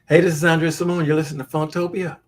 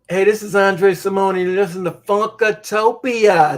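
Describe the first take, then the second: First: It is said fast. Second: It is said slowly.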